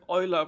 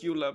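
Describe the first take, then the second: First: The name is said with a German pronunciation. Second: The name is said with an English pronunciation. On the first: The speaker calls it wrong. "when you pronounce it German" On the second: The speaker calls it right. "in the game they actually pronounce her name as Eula"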